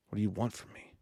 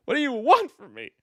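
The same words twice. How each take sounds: First: Said in the usual way. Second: Higher and louder mock plea; mock exasperated cry. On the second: Shown as a demonstration. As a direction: throw the line up in fake despair.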